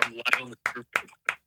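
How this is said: It sounds flat and unexcited.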